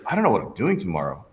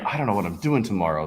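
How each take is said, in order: First: It sounds excited and upbeat. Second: It sounds disappointed and glum.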